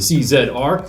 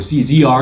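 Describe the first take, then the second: First: The letters are said in a non-American way. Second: The letters are said in the American way.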